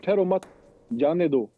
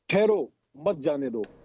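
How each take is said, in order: First: The pause comes right after 'मत'. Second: The pause comes right after 'ठहरो'.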